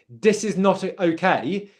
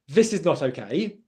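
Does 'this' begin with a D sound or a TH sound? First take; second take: D sound; TH sound. First: The first word starts with a D sound. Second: The first word starts with a TH sound. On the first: The speaker calls it wrong. "it can sound like a T or a D sound" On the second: The speaker calls it right. "instead of"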